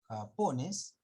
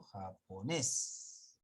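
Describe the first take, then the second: First: The stress falls before the last syllable. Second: The stress falls on the last syllable. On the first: The speaker calls it wrong. "¿Acaso leen ustedes japones?" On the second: The speaker calls it right. "No, japonés"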